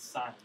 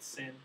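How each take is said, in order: First: The word has a long vowel, like 'sign'. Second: The word has a short vowel, like 'sin'. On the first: The speaker calls it right. "It's sine" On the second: The speaker calls it wrong. "Do not pronounce it sin. That annoys me"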